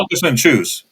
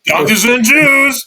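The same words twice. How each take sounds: First: It is said flatly, without energy. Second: It is said with lively energy.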